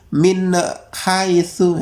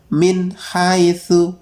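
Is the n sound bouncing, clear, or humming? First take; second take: bouncing; clear. First: The n sound bounces with an echoing release. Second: The n sound is clear and cleanly separated. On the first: The speaker calls it wrong. "Juga tidak mantul" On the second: The speaker calls it right. "yang benar"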